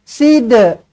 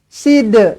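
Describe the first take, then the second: Both takes have the same delivery.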